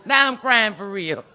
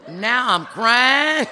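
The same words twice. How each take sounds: First: Loud, high, slow wail falling away; hammed-up heartfelt cry; retold real crying. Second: Very slow, high, loud wail; hammed-up drawn-out cry; mock crying. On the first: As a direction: bawl it in exaggerated despair. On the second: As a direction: drag the last word into a long bawl.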